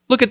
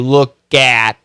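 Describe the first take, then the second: First: The word 'at' has a reduced schwa vowel. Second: The word 'at' has a full short A vowel. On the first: The speaker calls it right. "It's almost kind of a schwa" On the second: The speaker calls it wrong. "You don't have to say look at"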